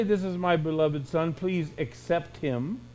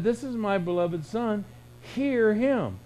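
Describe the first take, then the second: First: Said in the usual way. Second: "hear him" lifted higher and pressed as a command; rising, commanding stress on "hear him"; emphatic quote. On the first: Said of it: "It didn't say". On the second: Retold or imitated. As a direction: lift and punch "hear him". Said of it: "He said".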